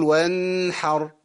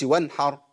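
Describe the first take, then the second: First: وانحر with ن dragged out; slow, humming ن in وانحر; nun too long. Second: Quick وانحر with a clipped ن; hurried وانحر without nasal timing; nun too short. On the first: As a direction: overhold the ن of وانحر. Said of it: "كل حاجة عندنا ليها ميزان". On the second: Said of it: "ما أقولش وانحر". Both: Shown as a demonstration.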